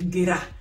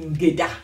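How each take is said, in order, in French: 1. La consonne du milieu est un son r. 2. La consonne du milieu est un son d. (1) "Quand il mange le D, il dit Ngera" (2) "quand on prononce bien, on dit Ngeda"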